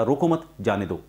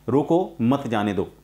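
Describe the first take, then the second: First: "रोको मत" joined, short break, "जाने दो"; pause after मत. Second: Slow "रोको", pause, then "मत जाने दो"; pause after रोको. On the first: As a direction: keep मत with रोको, then pause. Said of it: "मत के बाद कॉमा लगा". ("मत" के बाद विराम) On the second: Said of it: "मैंने आपको जैसे पहले बताया". ("रोको" के बाद विराम) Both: Shown as a demonstration.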